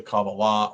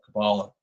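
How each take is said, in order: First: Kabbalah said kah-bah-LAH; Kabbalah, final stress. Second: Kabbalah said kuh-BAH-luh; Kabbalah, middle stress. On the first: Speaker offering listeners one pronunciation, Kabbalah stressed at the end. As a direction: put the stress on the last syllable of Kabbalah. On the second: Speaker offering listeners another pronunciation, Kabbalah stressed in the middle. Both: Shown as a demonstration. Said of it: "whichever way you like to sp-, pronounce it".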